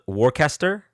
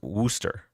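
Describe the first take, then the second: First: The word is read out fully as spelled. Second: The word is said in a shortened form. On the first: "I know like it's spelled Worcester" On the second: "I've been told it's pronounced Worcester"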